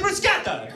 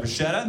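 First: "bruschetta" with a hard k, mock-Italian; "bruschetta" in exaggerated Italian, sk in the middle; Italian pronunciation. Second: Said in the usual way. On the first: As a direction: say "bruschetta" as brus-KET-ta, high and emphatic. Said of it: "That's how it's pronounced". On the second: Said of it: "What are you talking about".

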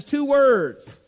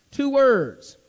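First: Said in the usual way. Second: "Two words" repeated higher and louder, each word hit; emphatic repeat. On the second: Shown as a demonstration. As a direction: lean hard on "Two words" the second time. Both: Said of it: "it emphasizes two words".

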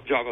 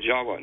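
First: "Java" with an English v; "Java" the usual English way, v sound; plain English pronunciation. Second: "Jawa" said with a w; "Jawa" as Indonesians say it, w for v; Indonesian pronunciation. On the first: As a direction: say "Java" with a clear V, not a W. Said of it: "not Ja-, Java like we do". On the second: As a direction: give "Jawa" a W in place of the v. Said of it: "Indonesians will pro-, pronounce it Jawa". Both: Shown as a demonstration.

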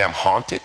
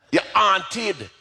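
First: Said in the usual way. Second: High Jamaican mother, H dropped in "haunted"; "haunted" in a high-pitched Jamaican accent. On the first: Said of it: "I didn't understand what she's trying to say". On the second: Retold or imitated. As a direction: imitate a Jamaican mom saying "haunted" as "'aunted". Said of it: "say this to me in her Jamaican accent".

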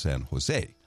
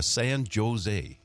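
First: "San Jose" with the J said as H; correcting "San Jose" to an H sound; silent Spanish J. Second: "San Jose" with a hard English J, drawn out; "San Jose" sounded with a J as in Joe; mispronounced J. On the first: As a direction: say "Jose" as "ho-ZAY". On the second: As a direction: say "Jose" slowly as "Joe-zay". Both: Retold or imitated. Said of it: "We don't pronounce the J".

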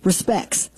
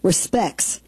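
First: Respects again as "re-specks", no t, softer; Respects, softly repeated. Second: Respects said like "respecks", dropping the t; mock Ozark pronunciation. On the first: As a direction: say Respects as "respecks" once more. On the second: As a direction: say Respects as "re-specks" with no t. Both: Shown as a demonstration. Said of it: "R E S P E C K S".

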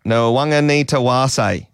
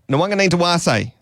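First: Slow, careful Nwang'anitawase; slower. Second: Higher-pitched, quicker Nwang'anitawase; triumphant attempt. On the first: Presenter practises the player's name for the co-host, slowly. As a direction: draw the name out, sounding every syllable. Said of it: "Do it slower". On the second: Presenter finally gets through the player's name, high and eager. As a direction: push the whole name out high in one go. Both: Shown as a demonstration.

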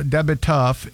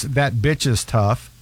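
First: Slurred "Da bit tough"; teen's mumbled accent. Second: "that bitch is tough" slow and fully articulated; slow clear translation. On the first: Retold or imitated. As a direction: say it mumbled like the teen. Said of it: "is that bitch is tough". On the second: Shown as a demonstration. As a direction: spell out "that bitch is tough" slowly.

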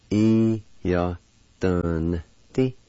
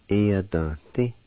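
First: "E, ya, dun, ti" in separate syllables, N sounded in "dun"; syllable-by-syllable demo. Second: "E, ya, dun, ti" run together as one word; whole-word demo. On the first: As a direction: break up "E, ya, dun, ti" for learners. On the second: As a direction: say "E, ya, dun, ti" joined up, N sounded in "dun". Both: Shown as a demonstration. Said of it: "with the D V like this".

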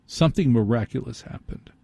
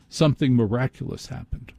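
The two takes are said the same way.

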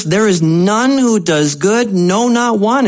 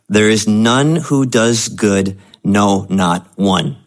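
First: Higher, insistent and grave, no sweetness; bad news reading. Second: Slow, gentle and kindly, as if good news; pleasant inflection. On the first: Pastor rereading the verse as the bad news, insistent. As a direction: deliver the verse as the hard truth. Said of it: "Uh, this is the bad news". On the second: Pastor reading verse to congregation, pleasant and slow. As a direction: reads harsh scripture sweetly. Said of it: "I was reading that with, like, a pleasant inflection". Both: Real, not acted.

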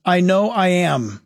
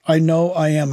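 First: Said in the usual way. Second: Uneasy repeat. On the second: Real, not acted. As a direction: repeat the title lower, with wary unease. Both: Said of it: "I'm just nervous about that title".

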